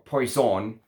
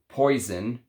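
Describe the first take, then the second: First: It is pronounced the French way. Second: It is pronounced the English way.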